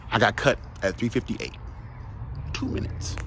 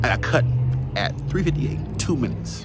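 First: Said in the usual way. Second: "three fifty-eight" slowed and weighted, "Two minutes" hit hard; slower, emphatic repeat. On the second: Shown as a demonstration. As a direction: drive home "three fifty-eight" word by word, slowly. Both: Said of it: "Let me say it again".

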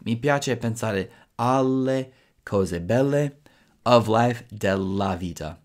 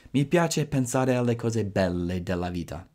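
First: Slow, careful full sentence; teacher demo at slow pace; slow model sentence. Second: Said in the usual way. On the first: Shown as a demonstration. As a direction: build the sentence slowly for learners. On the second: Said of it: "so della vita".

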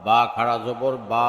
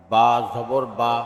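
First: Final "বা" held long; drawn-out vowel. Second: Final "বা" cut short; quick short vowel. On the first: Teacher demonstrating khara jabar, long "বা". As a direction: stretch the last "বা" for one alif. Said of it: "একালিপ টেনে পড়তে". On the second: Teacher demonstrating normal jabar, short "বা". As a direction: keep the last "বা" brief, not held. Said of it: "তাড়াতাড়ি করতে হয়". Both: Shown as a demonstration.

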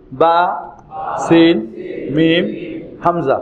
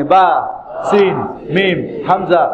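First: Spaced letter names with pauses; letter-by-letter drill. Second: Letter names in brisk succession; quick letter drill. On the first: Teacher leading learners through the letters, slowly one by one. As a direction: say each letter separately, pausing for repetition. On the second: Teacher telling learners to say it along with them, quickly. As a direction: run the letters together quickly. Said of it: "দ্রুত বলেন আমার সঙ্গে". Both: Shown as a demonstration.

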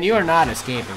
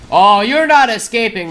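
First: Taunt repeated. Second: Slow loud taunt. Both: Real, not acted. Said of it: "repeated taunt".

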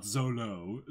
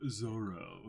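First: Zolo said with an L in the middle, ZO-lo; the mistaken Zolo, L instead of R; wrong Zolo. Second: Said in the usual way. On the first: Shown as a demonstration. Corrects co-host: says the wrong Zolo with an L. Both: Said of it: "Yes, not Zolo".

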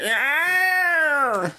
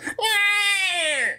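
First: High, loud dino call; dinosaur voice. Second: Dinosaur voice. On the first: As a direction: bellow it like a dinosaur. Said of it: "that's the dinosaur voice". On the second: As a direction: cry out like a dinosaur. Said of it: "the dinosaur voice would have been like". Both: Pretend.

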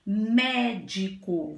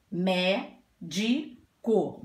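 First: Said in the usual way. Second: "Médico" very slow, "Mé... di... co"; syllable by syllable. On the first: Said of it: "Agora nós temos a palavrinha". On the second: Shown as a demonstration. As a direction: sound out "Médico" in three separate pieces. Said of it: "a divisão em sílabas".

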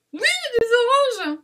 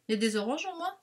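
First: High, loud cry of delight; real excited shout. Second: Said in the usual way. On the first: Real, not acted. Vlogger spotting oranges among the papers, shouting with excitement. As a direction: shout it out, pitch leaping way up. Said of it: "pardon, j'ai crié".

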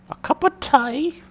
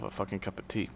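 First: High, drawn-out mock British accent; slow, loud put-on British squeal, rising as a question; Emma Watson. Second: Said in the usual way. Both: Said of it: "That was my Emma Watson accent".

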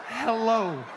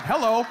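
First: Said in the usual way. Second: Loud barked hello; yelled hello. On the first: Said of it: "You saw me type". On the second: Retold or imitated. Woman online yelling her reply, loud. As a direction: shout the greeting at him. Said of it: "And I yelled it".

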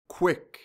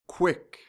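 Both takes have the same delivery.

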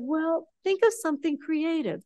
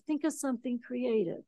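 First: Said in the usual way. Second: A hushed second take of "Think of something creative"; soft echo. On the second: Retold or imitated. They tell the speaker to get creative, softer echo. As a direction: repeat it much softer, trailing away. Retold advice, echoed softer.

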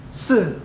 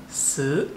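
First: "si" started high and dropped sharply; fourth tone. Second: Mandarin third tone on "si". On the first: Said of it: "fourth tone". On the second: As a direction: let "si" sag and swing back up. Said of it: "third tone". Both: Shown as a demonstration.

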